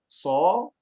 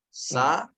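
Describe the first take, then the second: First: The s is followed by a rounded o-like vowel. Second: A plain s with an open a vowel. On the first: "Kemudian tambahkan o" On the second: "baca dia dengan sa"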